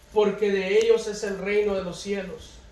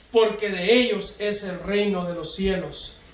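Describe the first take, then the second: The two takes are said the same way.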